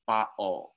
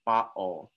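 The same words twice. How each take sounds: First: The middle t is a glottal stop. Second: The middle t is a glottal stop.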